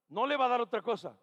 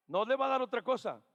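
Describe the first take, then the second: No difference in how they are said.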